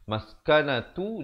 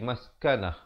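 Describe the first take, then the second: First: The word ends with a t sound and vowel. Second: The word ends with a soft h sound. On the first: The reading continues without stopping. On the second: The reader stops on this word. "Kalau kita pilih untuk wakaf, ditukarkan ta-nya menjadi ha"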